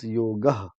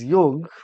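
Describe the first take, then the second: First: The word ends with a full final vowel. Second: The word ends on the final consonant. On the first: "you have to pronounce it full ... the last consonant is completely voiced along with the vowel" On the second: "It's yog"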